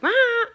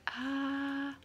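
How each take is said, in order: First: The sound is loud and screamed. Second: The sound is lower and softer. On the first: The child demands things by screaming. The speaker calls it wrong. "we don't talk like" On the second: The child asks in a calmer way. The speaker calls it right. "we talk like"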